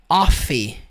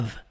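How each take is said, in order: First: The vowel sounds like an open 'o'. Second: The vowel sounds like a short 'a'. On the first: The speaker calls it wrong. "ela não é pronunciada com som de O" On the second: The speaker calls it right. "é o som do A e é o som do V"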